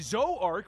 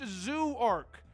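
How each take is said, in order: First: The name does not sound like 'zoo'. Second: The name sounds exactly like 'zoo'. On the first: The speaker calls it right. "which apparently I was mispronouncing it before" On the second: The speaker calls it wrong. "Why wouldn't I assume it's pronounced Zoo arc?"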